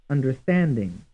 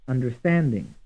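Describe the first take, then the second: The two takes are said the same way.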